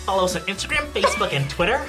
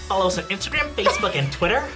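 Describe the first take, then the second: First: It is said in a put-on, over-articulated voice. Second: It is said in a put-on, over-articulated voice.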